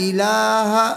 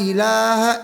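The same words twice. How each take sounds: Both takes have the same delivery.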